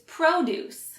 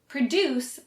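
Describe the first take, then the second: First: The stress is on the first syllable. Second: The stress is on the second syllable. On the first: It is a noun meaning fruits and vegetables. "emphasizes the first syllable" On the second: It is a verb meaning to make something. "puts an emphasis on the second syllable"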